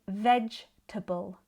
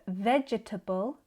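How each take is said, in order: First: The word is said with three syllables. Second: The word is said with four syllables. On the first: "I say vegetable" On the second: "Instead of vegetable"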